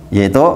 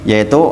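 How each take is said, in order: The two takes are said the same way.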